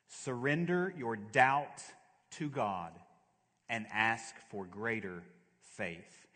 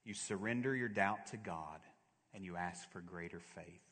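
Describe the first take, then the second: First: Slow, spaced-out "Surrender your doubt", each word landed firmly; measured, weighty stress on "Surrender" and "ask for greater faith"; emphatic repetition. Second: Said in the usual way. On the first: Real, not acted. Point repeated slowly for emphasis.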